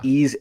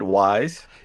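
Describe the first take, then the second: First: The name is said like 'ease', without a w. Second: The name is said like 'wise', with a w.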